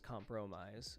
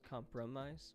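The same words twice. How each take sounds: First: The middle syllable has a full vowel. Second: The middle syllable has a reduced vowel. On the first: The speaker calls it wrong. "Nobody really says compromise" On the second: The speaker calls it right. "change the middle syllable to be compra"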